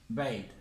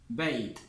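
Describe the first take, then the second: No difference in how they are said.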